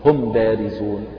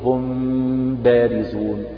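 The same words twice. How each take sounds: First: The m is firmly closed with no nasal hum. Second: The m is hidden with a nasal hum. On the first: "هكذا بالإطباق بقوة، إطباق الشفتين بقوة في الميم وإظهارها وليس فيها غنة" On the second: "فصفته أن تقول"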